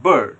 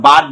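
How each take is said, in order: First: "বার্ড" with a central hesitation vowel, silent r; সঠিক উচ্চারণ. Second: "বার্ড" said with an open "aa", as "baad"; ভুল উচ্চারণ. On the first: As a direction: say "বার্ড" as "buhd", tongue lifted. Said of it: "আমরা বলি বার্ড". ("বার্ড" hesitation আ দিয়ে, র ছাড়া) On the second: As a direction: say "বার্ড" with a wide open aa vowel. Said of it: "বার্ড বলি না". ("বার্ড" খোলা আ দিয়ে "বাড") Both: Shown as a demonstration.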